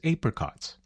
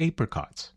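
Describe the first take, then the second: First: Said in an Australian pronunciation. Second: The same.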